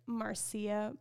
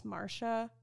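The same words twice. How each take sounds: First: Marcia said slowly as MAR-see-a; spelling pronunciation. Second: Marsha said plainly as MAR-sha; correct pronunciation. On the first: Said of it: "but it's Marsha". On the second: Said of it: "So I see it spelled as". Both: Shown as a demonstration.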